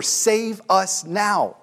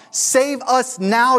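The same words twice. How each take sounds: First: "save us now." said slowly as a calm translation, falling at the end; slow gloss. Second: "Save us now," stretched out high and loud, rising like a plea; crowd crying out. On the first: Shown as a demonstration. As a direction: spell out "save us now." word by word, evenly. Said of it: "Hosanna is a Hebrew word for". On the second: Retold or imitated. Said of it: "they're crying out".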